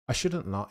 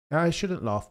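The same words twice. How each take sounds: First: Said in the usual way. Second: Higher, mock-stern self-reproach; a half-serious telling-off to yourself; mock self-scolding. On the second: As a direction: scold yourself in play with a raised pitch. Mock self-scolding over Lando joke.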